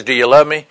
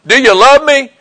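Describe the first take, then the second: First: Said in the usual way. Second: Raised, high-pitched imitation of exasperated asking; upset retelling. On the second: Preacher retelling Jesus questioning Peter once more, upset. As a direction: act out an upset, insistent question. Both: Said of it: "Then he gets all upset".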